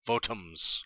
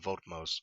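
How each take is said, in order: First: A vowel separates the t and the m. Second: The t runs straight into the m. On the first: The speaker calls it right. "Votums, I guess" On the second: The speaker calls it wrong. "probably pronouncing that terribly"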